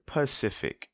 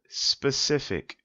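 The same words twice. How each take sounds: First: Pacific said clearly with "puh" onset; careful pronunciation. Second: Specific said slowly with clear "spuh" onset; careful pronunciation. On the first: Contrasting the culprit word, careful pronunciation. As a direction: say Pacific with no S at the start. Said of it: "and the word Pacific". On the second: Pointing out a big culprit word, slow careful pronunciation. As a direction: sound out specific, S-P at the start. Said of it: "here's a big culprit". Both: Shown as a demonstration.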